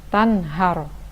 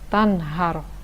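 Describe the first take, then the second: Both takes have the same delivery.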